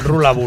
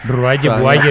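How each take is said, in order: First: Each word has an L middle sound. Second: Each word has a Y-like middle sound. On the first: This is how the name is actually pronounced. The speaker calls it right. "que se pronuncia Rula Bula" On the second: This is how it looks when read from the spelling. The speaker calls it wrong. "leído"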